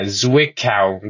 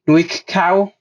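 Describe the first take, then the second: First: The name begins with a Z sound. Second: The name begins with an N sound. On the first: The speaker calls it right. "That's the best pronunciation I'm gonna get" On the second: The speaker calls it wrong. "I pronounce the Z as an N"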